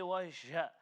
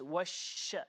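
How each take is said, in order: First: The sh sound fades away quickly. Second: The sh sound spreads out with emphasis. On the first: The speaker calls it wrong. "So we don't say washa" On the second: The speaker calls it right. "it's washa. Hold, uh, uh, give the emphasis to it"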